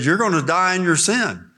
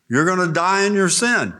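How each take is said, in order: First: Said in the usual way. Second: Preacher pressing the warning harder; emphatic warning. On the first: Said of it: "He's telling them". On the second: Acted. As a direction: drive the warning home. Preacher repeats warning, building.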